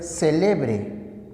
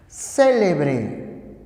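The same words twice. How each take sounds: First: Celebre stressed on LE, a bit slow; grave reading; stress on middle syllable. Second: Célebre with the weight on CÉ; esdrújula reading; stress on first syllable. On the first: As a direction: lean on the second syllable of celebre. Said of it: "también puede ser celebre". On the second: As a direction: hit the opening syllable of Célebre. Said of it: "pero también puede ser celebre". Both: Shown as a demonstration.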